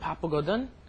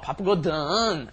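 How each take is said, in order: First: The pitch rises at the end. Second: The pitch falls at the end. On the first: The speaker is a little sorry. "So you kind of go up a little bit" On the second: The speaker is joking. "Then we'll go down a little bit more"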